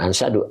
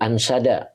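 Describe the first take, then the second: First: The word ends with an 'u' vowel. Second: The word ends with an 'a' vowel. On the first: The speaker calls it wrong. "maaf bukan ansadu" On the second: The speaker calls it right. "ansada, maaf ya"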